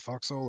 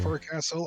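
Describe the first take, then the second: First: It is said shortened, like fohk-sul. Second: It is said in full, like fore-castle. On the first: "Or are you supposed to say foxhole?" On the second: "Are you supposed to say forecastle?"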